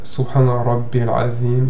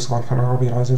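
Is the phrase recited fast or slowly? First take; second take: slow; fast. First: It is said slowly with pauses between repetitions. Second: It is rushed with no gaps between repetitions. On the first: It brings serenity and takes proper time. The speaker calls it right. "espacer entre chaque dhikr pour bien prendre son temps" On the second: It shows a lack of respect. The speaker calls it wrong. "ne dites pas"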